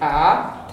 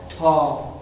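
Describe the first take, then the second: First: The vowel is further forward, Ulster style. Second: The vowel is far back, Munster style.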